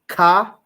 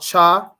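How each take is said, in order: First: It starts with a plain k sound. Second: It starts with a ch sound as in chair. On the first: "It's similar to ka" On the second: "This one here is not cha"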